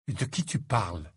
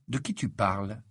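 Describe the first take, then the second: First: Lightly voiced dazed friend; puzzled. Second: Matter-of-fact question back. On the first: Lovesick Ron asks Harry what he means, lightly puzzled. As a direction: ask in mild, dreamy puzzlement. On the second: Baffled Harry questions Ron back, plainly puzzled. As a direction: turn the question round, lightly baffled. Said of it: "interrogea Harry". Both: A narrator's reading.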